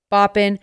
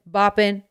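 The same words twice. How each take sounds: The two takes are said the same way.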